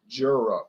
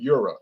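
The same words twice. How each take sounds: First: The name begins with a J sound. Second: The name begins without a J sound. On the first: This is how an English speaker reads the letter. "when I see the letter J, I say J" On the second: This may be how the makers say it. "Maybe they pronounce it Jura"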